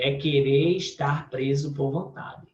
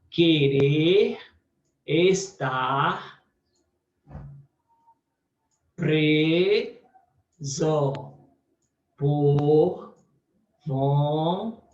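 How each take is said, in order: First: Said in the usual way. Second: Each part alone with long pauses between; split into parts. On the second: Shown as a demonstration. Teacher marking the verse division for students, pausing between parts. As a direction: pause after every chunk as if marking slashes. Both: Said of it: "eu passo barras pra separar".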